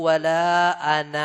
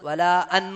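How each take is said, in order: First: It ends on a lengthened final vowel. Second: It ends cut short, without a final vowel. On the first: The speaker calls it right. "വലാ അനാ നീട്ടി നിർത്തണം" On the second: The speaker calls it wrong. "വലാ അൻ നിർത്തോ"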